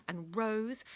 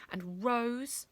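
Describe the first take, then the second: No difference in how they are said.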